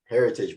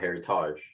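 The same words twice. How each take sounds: First: It is pronounced the English way. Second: It is pronounced the French way. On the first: "you call Heritage Heritage" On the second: "but not Heritage"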